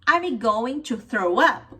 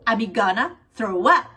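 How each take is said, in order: First: Going to is said in full, two words. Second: Going to is reduced to gonna.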